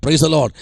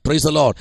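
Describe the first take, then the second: No difference in how they are said.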